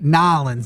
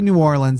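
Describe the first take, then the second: First: The name is squeezed into two short syllables. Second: The name is said in full, syllable by syllable. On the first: "They say Nolans down here. Only the Cajuns say that" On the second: "They don't say New Orleans"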